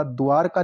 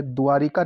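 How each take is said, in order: First: Said in the usual way. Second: द्वारिका with an added short i; mispronounced द्वारका. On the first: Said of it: "द्वारका लिखा जाएगा". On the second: Shown as a demonstration. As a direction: say द्वारिका as "dwaa-ri-kaa". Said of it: "द्वारिका नहीं होगा".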